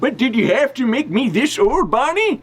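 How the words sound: It is read in a put-on old man voice.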